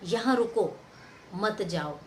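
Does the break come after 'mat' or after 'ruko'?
after ruko. The phrase breaks right after 'ruko'. Stay here and do not go anywhere. "इसका मतलब हो गया यहीं रुको, कहीं मत जाओ"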